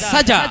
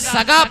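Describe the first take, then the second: First: The word begins with a j sound. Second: The word begins with a hard g sound. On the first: The speaker calls it right. "वहां तो जीम लिखा हुआ है" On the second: The speaker calls it wrong. "जीम की जगह गाफ पढ़ा था"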